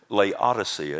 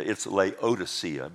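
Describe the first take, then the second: First: The 'o' sound in the middle is dropped. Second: The 'o' sound in the middle is pronounced. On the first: This is a regional way of saying it. "I always like to say" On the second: This is the form it is supposed to have. "but I don't like that way"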